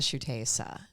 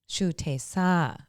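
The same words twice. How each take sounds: First: The name is said with an English-style pronunciation. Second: The name is said with a Thai-style pronunciation. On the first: Thai listeners are confused by it. "if I say it like that in Thailand, people look at me confused" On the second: Thai listeners understand it. "the way that I repeat myself when I'm in Thailand"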